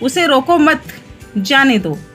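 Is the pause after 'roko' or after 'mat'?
after mat. The pause comes right after 'mat'.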